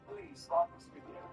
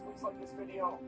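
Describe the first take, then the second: First: It is said in a put-on British accent. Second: It is said in the speaker's normal accent.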